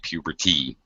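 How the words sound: The middle consonant is a crisp T sound. "A British might, person might say"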